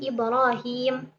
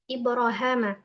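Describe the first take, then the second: First: The vowel after the h is an ee sound. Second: The vowel after the h is an a sound. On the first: This is the reading used elsewhere in the Quran. "dibaca dengan ya" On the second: This is the reading of a particular reciter. "dengan alif"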